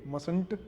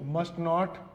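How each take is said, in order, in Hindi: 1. एक छोटा शब्द, t साइलेंट रहता है। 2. दो पूरे शब्द, 'must' का t बोला जाता है।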